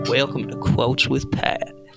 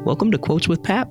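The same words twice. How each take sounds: First: It is said in a Southern accent. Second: It is said in a Midwestern accent.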